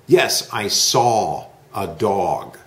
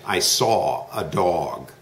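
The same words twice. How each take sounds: First: Said in the usual way. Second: Saw stretched, slow and a little lower; slow model sentence. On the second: Shown as a demonstration. Teacher repeats the sentence slowly for the student to copy. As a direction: lay weight on saw, slowly. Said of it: "Repeat, I saw a dog".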